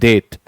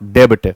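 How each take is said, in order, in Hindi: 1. इस शब्द में b की आवाज़ नहीं बोली जाती। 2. इस शब्द में b की आवाज़ बोली जाती है। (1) "इट इज डेट" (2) "नॉट डेब्ट"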